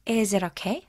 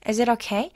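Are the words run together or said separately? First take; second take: run together; run together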